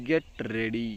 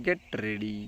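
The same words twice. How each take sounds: The two takes are said the same way.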